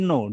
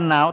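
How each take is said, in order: First: The vowel rhymes with 'go'. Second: The vowel rhymes with 'cow'. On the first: The speaker calls it right. "tapi no. Jadi kayak ngomong tidak" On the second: The speaker calls it wrong. "Bukan now"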